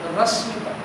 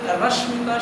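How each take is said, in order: First: The middle consonant is a plain 's' sound. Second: The middle consonant is a 'sh' sound. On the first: "she would say Rasmita. The sh would not come" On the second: "She was not able to say Rashmita"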